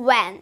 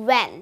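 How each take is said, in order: First: The word begins with a 'w' sound. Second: The same.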